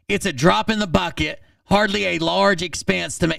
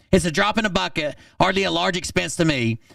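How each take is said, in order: First: Said in the usual way. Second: Quick mocking reread. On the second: Re-reading his text, mocking.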